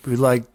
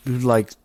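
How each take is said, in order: Both takes have the same delivery.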